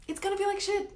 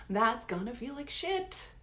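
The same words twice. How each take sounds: First: Much higher, stressing the word feel; higher repeat. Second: Softer and slowed right down, letting it sink in; slow and quiet. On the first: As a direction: lift the repeat up high and lean on feel. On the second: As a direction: drop the volume and drag the words out. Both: Shown as a demonstration. Repeats the line twice.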